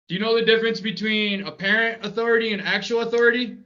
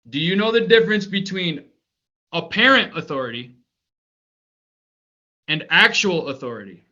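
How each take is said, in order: First: It is asked at a normal speed. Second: It is asked slowly and clearly.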